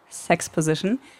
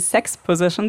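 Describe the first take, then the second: First: It is one word, stressed on the last syllable. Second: It is two words, stressed on the first syllable. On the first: Plot explanation delivered during a sex scene. "So wie die Exposition, aber mit Sex" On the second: A position during sex. "also nicht die Sex Position"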